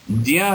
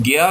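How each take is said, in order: First: ज्या said as "jya", j joined to y; correct Sanskrit pronunciation. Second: ज्ञा said as "gya"; common pronunciation. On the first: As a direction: start ज्या with a j sound, not g. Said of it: "सही उच्चारण". (ज्या में ज और य का मिला उच्चारण) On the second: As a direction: start ज्ञा with a hard g, then y. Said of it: "ज्ञा भी बोल देते हैं". (ज्ञा का प्रचलित "ग्या" उच्चारण) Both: Shown as a demonstration.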